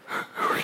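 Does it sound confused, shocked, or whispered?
whispered. It is said in a soft whisper.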